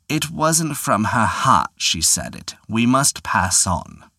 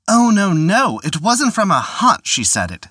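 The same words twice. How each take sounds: First: Put-on old prospector. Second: Higher, louder hurried protest; protesting taxman. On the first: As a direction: drawl it out slowly like a wily old man. The Devil declines the prize. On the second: Acted. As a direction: protest in a panic. Collector protests in alarm.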